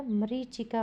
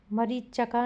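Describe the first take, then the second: First: मरीचिका with a clear short i, ma-ree-chi-ka; correct pronunciation. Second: मरीचका with a short a after ch, ma-ree-cha-ka; wrong pronunciation. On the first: Teacher giving pupils the correct word, plain voice. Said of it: "मरीचिका होगा". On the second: Teacher showing pupils the common mistake. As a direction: drop the i in मरीचका. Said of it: "मरीचका नहीं होगा". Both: Shown as a demonstration.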